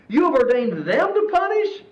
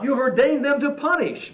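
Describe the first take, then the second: First: It is said as a questioning remark. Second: It is said as a plain statement. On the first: It doubts that they could be ordained to punish. The speaker calls it right. "I'm going to read this as a question" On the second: It accepts that they were ordained to punish. The speaker calls it wrong. "He's not saying"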